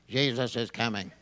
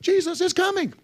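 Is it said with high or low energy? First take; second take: low; high. First: It is said flatly, with little energy. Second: It is said with lively, dynamic energy.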